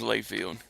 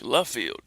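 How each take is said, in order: First: The first syllable sounds like 'lay'. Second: The first syllable sounds like 'luh'. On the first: The speaker calls it wrong. "that's what everybody tried to call me was Layfield" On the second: The speaker calls it right. "It's French"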